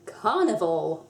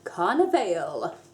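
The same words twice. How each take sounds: First: It is said with the usual English pronunciation. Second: It is said with a Spanish-like pronunciation.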